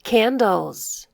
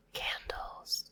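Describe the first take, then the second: First: Said in the usual way. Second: Whispered echo of "candles". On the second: Shown as a demonstration. Teacher whispering the word back for kids. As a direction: breathe "candles" softly with no voice.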